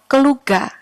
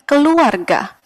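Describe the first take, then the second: First: The word is said with a sound dropped. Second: The word is said with all its syllables. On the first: The speaker calls it wrong. "menjadi keluar atau keluga" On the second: The speaker calls it right. "mengucapkan hmm, keluarga"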